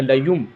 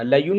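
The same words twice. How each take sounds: First: लयुम ending on a closed-lip m; n changed to m. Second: लयुन ending on a plain n sound, shown as the mistake; wrong nasal n. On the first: Teacher demonstrates the correct reading with an m sound. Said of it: "नून को मीम से बदल कर". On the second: Teacher demonstrates the wrong reading with an n sound. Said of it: "लयुन नहीं पढ़ेंगे". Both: Shown as a demonstration.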